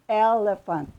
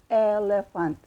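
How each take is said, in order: Both takes have the same delivery.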